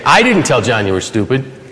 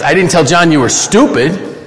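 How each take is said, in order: First: The word "I" carries the main stress. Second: The word "stupid" carries the main stress. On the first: Someone else told John. "Somebody else did" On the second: A different insult was used. "I told him you were an idiot"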